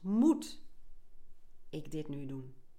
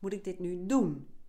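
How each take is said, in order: First: The stress is on the word moet. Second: The stress is on the word doen. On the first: "De eerste keer leg je de klemtoon op het eerste woord" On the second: "En tot slot"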